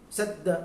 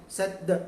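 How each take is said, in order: No difference in how they are said.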